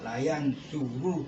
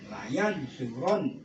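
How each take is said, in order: First: The vowel before the final syllable is 'u'. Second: The vowel before the final syllable is 'a'. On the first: The verb refers to several people. The speaker calls it wrong. "nggak boleh dibaca layan suruh" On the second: The verb refers to one person. The speaker calls it right. "Karena ini mufrad harus dibaca fathah"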